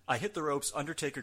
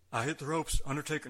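First: Said in the usual way. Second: Lightly attempted wrestler voice, louder and higher; loud, raised hint of a wrestler's voice; Steve Austin impression. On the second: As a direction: start a half-hearted wrestler impression. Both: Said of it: "I won't do it in Austin's voice".

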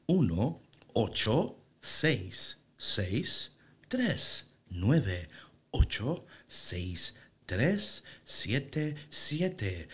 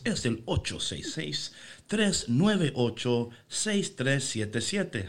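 First: Very slow, mechanical digit-by-digit robot readout; toy robot voice. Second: Slow, evenly spaced robotic digit readout; toy robot voice. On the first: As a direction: spell out each number like a machine, dragging it. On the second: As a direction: read the digits like an automated phone line. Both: Shown as a demonstration. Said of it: "una voz de robot".

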